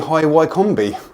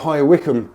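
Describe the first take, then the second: First: The name is said exactly as spelt. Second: The name is said the usual, local way.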